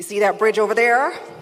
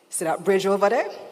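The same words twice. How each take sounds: First: It is said in an American accent. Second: It is said in the speaker's everyday accent. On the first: The speaker calls it right. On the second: The speaker calls it wrong.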